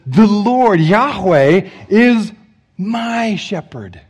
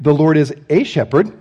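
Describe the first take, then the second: First: Slow, with "my" drawn out and stressed, softening at the end. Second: "a" said long and stressed. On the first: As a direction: linger on "my" in "my shepherd", make it personal. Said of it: "No, David says". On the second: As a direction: lean on "a" in "The Lord is a shepherd", make it sound generic. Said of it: "David didn't write". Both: Shown as a demonstration.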